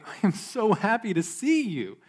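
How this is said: The voice is warm, bright and sincere. The speaker truly means the words. "with a cheerful voice and a sincere smile"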